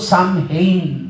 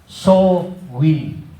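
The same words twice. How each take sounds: First: It is said as spelled, like 'sam-hain'. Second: It is said like 'sow-win', without the h. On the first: The speaker calls it wrong. "hindi po Samhain ang pronunciation niyan" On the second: The speaker calls it right. "ang pronunciation po dyan is Samhain. Parang soul win"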